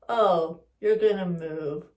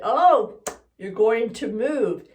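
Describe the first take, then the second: First: It is said in a lowered, disapproving tone. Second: It is said in a neutral tone.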